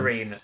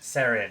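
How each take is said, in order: First: The word is said like the English 'serene'. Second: The word is said as short 'seh-ren'. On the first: The speaker calls it wrong. "am I saying it wrong?" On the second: The speaker calls it right. "it's Welsh for star"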